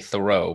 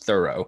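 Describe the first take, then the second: First: The stress is on the second syllable. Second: The stress is on the first syllable. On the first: This is how the name is said today. "So now we say Thoreau" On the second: This is how the name was said in the past. "but I guess back then it was Thoreau"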